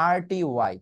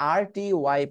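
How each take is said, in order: Both takes have the same delivery.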